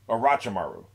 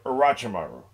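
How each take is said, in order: The two takes are said the same way.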